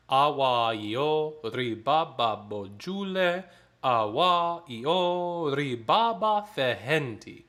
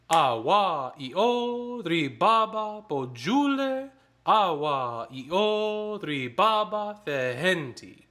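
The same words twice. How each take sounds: First: Text spoken very slowly and evenly. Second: "Awa, i, o, ri, ba" chanted in rhythm, higher and louder on the stressed syllables; chanted, speak the text in rhythm with accents; rhythmic chant. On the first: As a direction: read the words slowly first. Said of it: "here's the text first". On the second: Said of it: "there is emphasis on syllables". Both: Shown as a demonstration.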